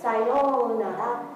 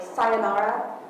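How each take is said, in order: First: It is said plainly in a natural voice. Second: It is said in an imitated character voice. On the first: The speaker calls it right. "don't do it like that" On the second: The speaker calls it wrong. "don't pronounce it like sayonara, like, you know, what's his name from Xenosaga"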